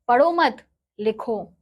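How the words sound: The pause comes after the second word.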